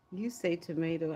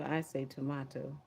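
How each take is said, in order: First: "tomato" as to-MAY-to; long A, to-MAY-to; "tomato" sung out as tuh-MAY-toh. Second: "tomato" as to-MAH-to; broad A, to-MAH-to; "tomato" as tuh-MAH-toh. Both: Shown as a demonstration.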